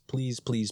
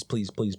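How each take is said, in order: First: Said in the usual way. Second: Please shouted out in desperation; shouted begging. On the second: Real, not acted. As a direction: yell the please at them. Begging viewers for ideas.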